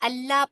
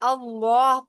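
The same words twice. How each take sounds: First: The L sound is thin and light. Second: The L sound is thick and heavy. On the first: "अगर जेर आएगी तो फिर अल्लाह पढ़ा जाता है" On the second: "जबर या पेश आएगी अल्लाह पढ़ा जाता है"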